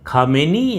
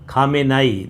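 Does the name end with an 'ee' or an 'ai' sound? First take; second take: ee; ai. First: The name ends with an 'ee' sound. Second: The name ends with an 'ai' sound. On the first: "हम लोग भारत में तो खामेनी ही बोलते हैं ज़्यादातर" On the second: "दो तरह से इसको प्रोनाउंस किया जाता है"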